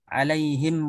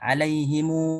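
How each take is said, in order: First: The final m is closed with no vowel. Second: The final m carries a lengthened u vowel. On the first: "mim jama'nya disukunkan"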